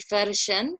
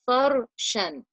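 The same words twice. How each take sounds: First: The R is pronounced light and thin. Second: The R is pronounced heavy and full-mouthed. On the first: The speaker calls it wrong. "the wrong way of saying this would be farshan, that's light" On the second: The speaker calls it right. "I need to say it in a heavy way"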